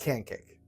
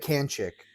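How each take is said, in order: First: The final syllable begins with a 'k' sound. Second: The final syllable begins with a 'ch' sound. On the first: The speaker calls it right. "but it's can kick" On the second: The speaker calls it wrong. "I said it wrong the first time. Remember, I did say can chick"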